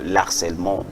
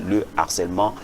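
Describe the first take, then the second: First: The article is elided and linked to the noun. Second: The article is said in full, without linking. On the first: The speaker calls it wrong. "On dit souvent l'harcèlement" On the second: The speaker calls it right. "la liaison euh, ne se fait pas. On dit le harcèlement"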